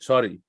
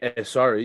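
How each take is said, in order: First: The word starts directly with the s sound. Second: An extra vowel sound comes before the s. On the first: The speaker calls it right. "you just say sorry" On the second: The speaker calls it wrong. "you wouldn't say eh, sorry"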